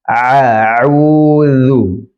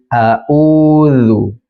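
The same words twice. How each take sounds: First: Both throat consonants are deep pharyngeal ain sounds. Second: Both throat consonants are plain glottal stops. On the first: "kedua-duanya berubah menjadi ain" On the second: "kedua-duanya menjadi hamzah"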